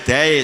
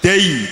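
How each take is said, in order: First: The diphthong ends in an e-like sound. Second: The diphthong ends in a clear i sound. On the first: The speaker calls it wrong. "jangan dai seperti e" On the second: The speaker calls it right. "Yaknya ini yang membacanya harus seperti i"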